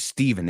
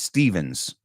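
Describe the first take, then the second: First: The name ends without any s sound. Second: The name ends with an s sound attached. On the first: The speaker calls it wrong. "Piensa que no es Steven" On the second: The speaker calls it right. "it's Stevens"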